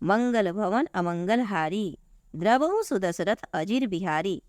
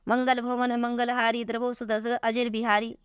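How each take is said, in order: First: There is a pause in the middle of the line. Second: The line is read straight through without a pause. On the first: The speaker calls it right. "अभी अच्छा लगा कि नहीं लगा?" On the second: The speaker calls it wrong. "नहीं अच्छा लगा"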